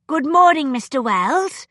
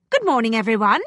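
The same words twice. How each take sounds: First: Put-on a stiff, proper greeting from a young lady; mild formality, each word set just so. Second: A quick, businesslike greeting; brisk. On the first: Edwina greets her teacher formally from the doorway, very formal. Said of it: "Edwina said very formally". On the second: Concordia walks in on the gathering, brisk greeting. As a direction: breeze in and greet them briskly. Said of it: "she said briskly". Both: A narrator's reading.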